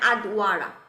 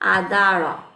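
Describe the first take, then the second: First: A 'w' sound is heard after the 'd'. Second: No 'w' sound; a long 'a' follows the 'd'. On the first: The speaker calls it wrong. "তাহলে আদওয়ারা হতো" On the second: The speaker calls it right. "যার কারণে জিনিসটাকে বলতেছে আদা আদারা"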